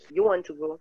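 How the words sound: The voice falls at the end. It is a statement. "Itu adalah uh, pernyataan"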